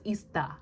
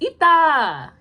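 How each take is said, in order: First: An s sound is heard before the t. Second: No s sound is heard before the t. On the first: The speaker calls it wrong. "if you didn't know, you'd pronounce it as ista" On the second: The speaker calls it right. "It's ita"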